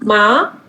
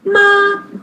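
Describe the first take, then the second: First: The pitch rises from mid to high. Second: The pitch stays high and level. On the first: "second tone" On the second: "first tone"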